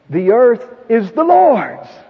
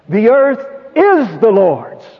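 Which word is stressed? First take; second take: Lord's; is. First: The word "Lord's" carries the main stress. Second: The word "is" carries the main stress. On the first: It belongs to God and to no one else. "It doesn't belong to anyone else" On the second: It belongs to God despite appearances to the contrary. "In spite of everything that's going on about us to the contrary"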